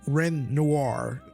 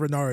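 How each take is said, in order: First: The name ends in a 'nwar' sound. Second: The name ends in a plain 'nar' sound. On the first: The speaker calls it right. "Noir, Ren Noir" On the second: The speaker calls it wrong. "I keep saying Renar"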